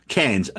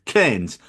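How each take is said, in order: First: Cairns with the standard vowel; Cairns, plain everyday pronunciation; Cairns said plainly. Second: Cairns with a flat short vowel, like cans; Cairns said the Australian way. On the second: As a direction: Cairns as Aussies say it, no r. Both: Shown as a demonstration. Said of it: "they all pronounce it Cairns".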